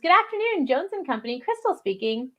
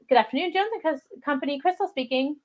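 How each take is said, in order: First: The greeting sounds warm and eager. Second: The greeting sounds flat and uninterested. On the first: The speaker calls it right. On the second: The speaker calls it wrong.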